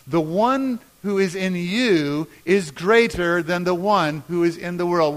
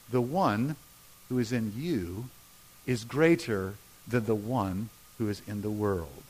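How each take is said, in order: First: Strong, measured group reading; leading a recitation. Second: Low, soft, with pauses between phrases; deep, subdued scripture reading; hushed verse reading. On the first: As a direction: lead the room through the verse. Leads congregation in saying verse. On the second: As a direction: quote it quietly, phrase by phrase. First quiet reading of verse. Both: Shown as a demonstration.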